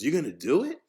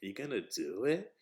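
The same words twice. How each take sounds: First: Said in the usual way. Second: Lower, softer puzzled question; confused. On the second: Acted. Mother questioning her son's new job, confused. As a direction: ask it quietly, rising in confusion. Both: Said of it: "like, confusion".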